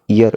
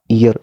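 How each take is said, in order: No difference in how they are said.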